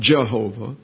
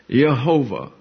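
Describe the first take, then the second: First: The word begins with a J sound. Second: The word begins with a Y sound. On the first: The speaker calls it wrong. "not Jehovah" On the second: The speaker calls it right. "So it's Jehovah"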